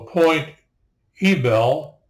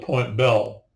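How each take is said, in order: First: The Y syllable is pronounced: Point Ee-bel. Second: The Y syllable is silent: Point Bell. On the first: This is the newer, non-original way of saying it. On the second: This is how the locals originally said it.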